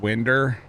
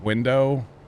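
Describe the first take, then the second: First: It is said in Missouri dialect pronunciation. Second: It is said in standard pronunciation. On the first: "We say things like winder" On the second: "instead of window"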